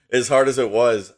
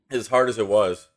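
First: Recovering with a laugh; laugh, then carry on louder. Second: Strained, caught in the throat; choking on a chocolate chip. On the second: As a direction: talk while choking on food. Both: Real, not acted. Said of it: "I'm sorry, I'm choking on a chocolate chip".

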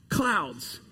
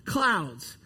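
The two takes are said the same way.

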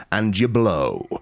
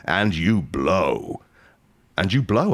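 First: Said in the usual way. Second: Drawn out. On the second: Shown as a demonstration. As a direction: drag out "and you blow" deliberately. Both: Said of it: "I'll say it a third time".

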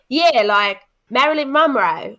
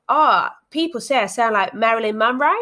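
First: Put-on louder Aussie accent, rising end; Australian woman, insisting brightly. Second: Australian woman, first mention; Australian accent. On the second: Retold or imitated. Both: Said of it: "a little bit of an Aussie accent from you there".

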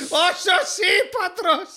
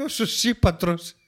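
First: High, drawn-out laughing disbelief; gleefully astonished, laughing through a slowed name; incredulous amazement. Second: Said in the usual way. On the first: Real, not acted. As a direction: stretch ΣΩΣΙΠΑΤΡΟΣ slowly and high, cracking up. Repeats the absurd name in disbelief.

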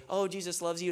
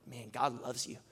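First: Breezy, offhand, pitched a bit higher; throwaway blessing said without meaning it; casual cop-out. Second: Quieter, sincere and meant; softer sincere blessing, truly felt; heartfelt sincere. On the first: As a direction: toss it off like a routine line. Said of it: "it's kinda like a cop-out". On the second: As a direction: let it land softly from the heart. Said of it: "for some reason, I felt it, like, more than I ever have". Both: Retold or imitated.

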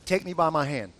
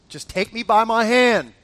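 First: Low, measured reassurance; calm coaxing. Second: Louder, firmer plea; insistent urging. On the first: Husband to scared wife, calm coaxing. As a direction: offer help in a lowered, steady voice. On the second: Husband urging scared wife down, insistent. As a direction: press the request with more force. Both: Retold or imitated.

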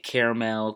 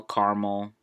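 First: "Caramel" said CARE-uh-mel; three-syllable caramel. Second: "caramel" said CAR-mul; two-syllable caramel. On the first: Podcaster asking listeners, "Caramel" as CARE-uh-mel. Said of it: "How do you guys say it?". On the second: Podcaster trying the weird option, "caramel" as CAR-mul. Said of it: "That's weird to say caramel". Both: Shown as a demonstration.

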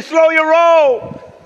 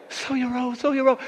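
First: High, loud, very slow; drawn-out shout. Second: Said in the usual way. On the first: Acted. Congregation told to tell neighbours, drawn-out shout. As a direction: stretch it out at full voice.

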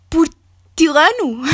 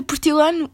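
First: Slow, drawn-out Italian-accented portilano; italian accent portuguese. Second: Said in the usual way. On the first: Shown as a demonstration. (português com sotaque italiano) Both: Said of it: "já me estou a ver a falar portilano".

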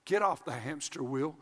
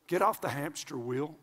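Both takes have the same delivery.

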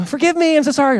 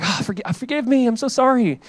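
First: Much higher, overdone whiny plea; mock apology again. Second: Higher, whiny sorry; lightly hammed-up plea for forgiveness; mock apology. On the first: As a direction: exaggerate the same fake sorry. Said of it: "They hurt you".

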